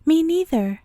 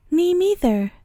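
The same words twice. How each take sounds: First: "me" punched, small high mouse voice; "me" stressed, "neither" light and falling. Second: Small high mouse voice, stress on neither; a tiny mouse chiming in, leaning on "neither"; "neither" given the weight, said high and small; tiny little voice. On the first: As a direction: correct yourself by hitting "me". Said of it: "I mean". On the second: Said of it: "said a tiny little voice". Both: A narrator's reading.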